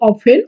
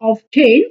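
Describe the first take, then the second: First: The word is said without a t sound. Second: The word is said with a t sound. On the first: The speaker calls it right. "এটার উচ্চারণ হবে অফেন" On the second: The speaker calls it wrong. "আমরা অনেকেই ভুল করে এটা উচ্চারণ বলি অফটেন"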